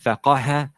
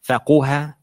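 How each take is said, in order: First: The vowel after the q is a. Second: The vowel after the q is u. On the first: "or it can have a fatha" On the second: "It can have a dhamma"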